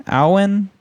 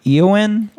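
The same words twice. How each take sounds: First: Aowen starting on an open "ow" sound, questioning; second pronunciation guess. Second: Eowyn starting on an "ee" sound, questioning; first pronunciation guess. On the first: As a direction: try Aowen as "OW-en", voice lifted. Second try at the name. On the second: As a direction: try Eowyn as "EE-oh-win", voice lifted. Unsure how name is said. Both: Real, not acted.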